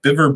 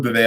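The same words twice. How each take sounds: First: "Biver" said with a sounded final R; unsure pronunciation. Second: "Bivet" said French-style with a silent T; alternative pronunciation. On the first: Trying out a surname he can't pronounce, "Biver" with an R ending. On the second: Trying another guess at the surname, "Bivet" ending in -vay. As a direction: end "Bivet" on a -vay sound, no R. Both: Shown as a demonstration. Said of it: "I don't know how it's pronounced".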